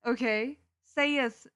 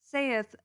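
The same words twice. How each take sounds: First: Stifling a laugh. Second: "Saith" drawn out with a falling tone; solemn archaic "Saith". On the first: Real, not acted. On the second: Acted. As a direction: intone "Saith" like a stern decree. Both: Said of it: "I can't even say that with a straight face".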